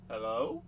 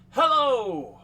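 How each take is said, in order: First: It is said as a rising question. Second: It is said as a forceful exclamation.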